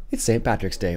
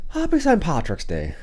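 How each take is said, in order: First: Said in the usual way. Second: Slow, hammed-up Irish lilt on each word; a playful attempt at an Irish greeting, slow; Irish accent. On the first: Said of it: "or I should say". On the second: Vlogger greets viewers on Saint Patrick's Day, slow mock Irish accent. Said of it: "That's my best Irish impression".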